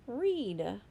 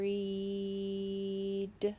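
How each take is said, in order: First: The word is said quickly as one smooth unit. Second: The word is stretched out, one sound at a time. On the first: "Say it fast" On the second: "Now I'm going to sound out this word"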